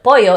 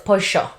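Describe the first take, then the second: First: The double L sounds like y. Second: The double L sounds like sh.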